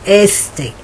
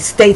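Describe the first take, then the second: First: An added vowel sound comes before the s. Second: The word begins directly with the s sound. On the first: The speaker calls it wrong. "they would say A State" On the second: The speaker calls it right. "my students wouldn't say State Street"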